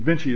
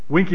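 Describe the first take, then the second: First: It begins with a V sound and soft ch. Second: It begins with a W sound and hard K. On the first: "Vinci is what most people say" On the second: "Winky is a proper pronunciation"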